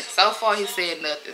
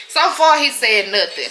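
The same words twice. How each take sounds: First: Said in the usual way. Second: First "So far" jumps high and loud; emphatic. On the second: Real, not acted. About her cousin's birthday plans, a loud high emphatic first take. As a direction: punch "So far" much higher and louder.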